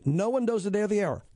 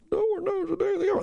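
First: Said in the usual way. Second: High, far-off echo of the listeners; mock crowd repeating back. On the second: Shown as a demonstration. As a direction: voice the audience answering back. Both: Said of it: "everybody repeat after me".

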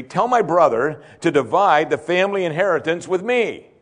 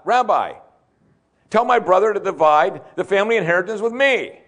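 First: Said in the usual way. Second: Higher-pitched call from the crowd; mock shout up to the rabbi, demanding; yelled out. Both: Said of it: "Someone just yelled out".

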